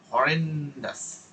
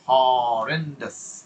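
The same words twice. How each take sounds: First: "horrendous" slow, long on REN, falling; stretched E. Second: "horrendous" with a very long opening HAW; stretched O. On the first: Teacher offering another option, "horrendous" stretched on the E. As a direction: drag out the middle of "horrendous" and let it drop. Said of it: "এটাকে টানেন". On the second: Teacher offering one option, "horrendous" stretched on the O. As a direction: drag out the first vowel of "horrendous". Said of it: "ওটাকে টানেন". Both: Shown as a demonstration.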